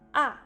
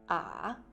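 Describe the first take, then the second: First: The pitch drops quickly from high to low. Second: The pitch dips down and comes back up. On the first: "au quatrième temps, le son descend rapidement" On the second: "au troisième temps, la prononciation fait un virage"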